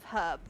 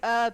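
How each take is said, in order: First: The word starts with an h sound. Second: The word starts without an h sound. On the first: The speaker calls it right. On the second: The speaker calls it wrong.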